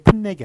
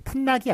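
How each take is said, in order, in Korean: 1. 두 번째 음절의 모음은 'ae'이다. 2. 두 번째 음절의 모음은 'a'이다.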